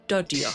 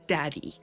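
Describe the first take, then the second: First: The word sounds like 'dodger'. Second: The word sounds like 'daddy'. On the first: The speaker calls it right. "It's dodger" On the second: The speaker calls it wrong. "It's not daddy, which is what Aiden said"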